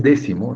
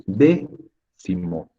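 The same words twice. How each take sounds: First: Said in the usual way. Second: "Décimo" slowly split, DÉ, pause, cimo; "Décimo" broken after its stressed first syllable; syllable stress demo. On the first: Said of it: "es una palabra esdrújula". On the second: Shown as a demonstration. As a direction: isolate the stressed "Dé" in "Décimo", then finish the word. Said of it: "debería ir con tilde".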